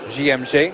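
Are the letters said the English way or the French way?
French. The letters are said with French letter names.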